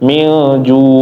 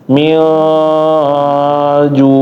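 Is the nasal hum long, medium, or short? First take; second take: short; long. First: The nasal hum is a little shorter. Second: The nasal hum is held too long. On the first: "lebih pendek sedikit" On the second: "terlalu panjang"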